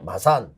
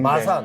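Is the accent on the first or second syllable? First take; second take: second; first. First: The accent falls on the second syllable. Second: The accent falls on the first syllable. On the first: "이렇게 뒤쪽에 가고" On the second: "악센트가 우리는 앞쪽에 있고"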